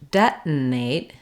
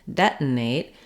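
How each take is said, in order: First: It is said with an American accent, unreleased T. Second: It is said with an American accent, unreleased T.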